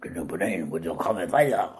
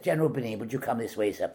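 First: Low, garbled fake Swedish accent; comically unconvincing Swedish accent; bad Swedish accent. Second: Said in the usual way. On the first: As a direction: mangle the words in hopeless mock Swedish. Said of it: "somebody with a Swedish accent". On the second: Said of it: "do the line in English then".

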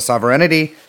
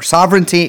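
First: "sovereignty" with an extra syllable, sov-er-EN-ity; mispronounced sovereignty. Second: Said in the usual way. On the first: Real, not acted. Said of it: "I always do that". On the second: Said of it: "excuse me, I always do that".

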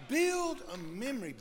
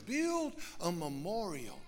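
First: Rising shout on build, pitched high; exhortation. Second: Said in the usual way. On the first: Acted. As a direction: call it out like a charge to the room. Preacher exhorting the congregation.

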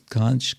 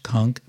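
First: Conch ending in a ch sound; everyday pronunciation. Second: Conch ending in a hard k; proper pronunciation. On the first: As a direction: say conch as "kontch". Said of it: "we always say conch". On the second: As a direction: say conch as "konk". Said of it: "but it's actually conch". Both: Shown as a demonstration.

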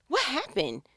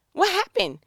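First: Said in the usual way. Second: High, loud incredulous what happened?. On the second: Acted. Speaker to the irritated spouse, high incredulous question. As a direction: throw up your hands in disbelief. Asking what went wrong.

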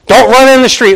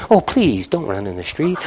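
First: Put-on sharp, higher, louder warning to a child; stern warning. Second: Timid pleading. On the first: Parent warning a child away from the street, stern. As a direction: bark the warning at a kid. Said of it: "sometimes a little sternly". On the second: Retold or imitated. Parent too meek to stop the child, soft pleading. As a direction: beg the child weakly.

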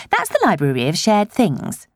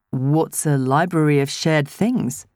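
First: Higher, bright and eager; chatty village woman. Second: Slow, puzzled questioning; puzzled man. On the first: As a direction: gush a little as a friendly local. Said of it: "the woman who'd taken Zoe to the teenage section told him". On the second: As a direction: ask it slowly, a bit lost. Adam asks, puzzled. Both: A narrator's reading.

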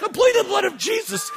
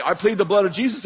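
First: Very high frantic shriek; desperate high-pitched comic cry; panicked plea. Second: Said in the usual way. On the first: Retold or imitated. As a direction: squeal it out in mock terror. His own panicked version of it. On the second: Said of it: "you know, Beal used to say".

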